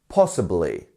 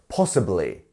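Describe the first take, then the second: No difference in how they are said.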